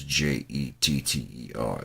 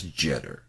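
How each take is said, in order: First: J E T T E R spelled out, each letter slow and separate. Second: "Jetter" said with a short e, like "jet"; correct pronunciation. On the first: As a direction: spell out J E T T E R one letter at a time. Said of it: "he says Jeter, but it's". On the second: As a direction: say "Jetter" with a short e, not "Jeeter". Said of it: "can't even pronounce his own goddamn last name". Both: Shown as a demonstration.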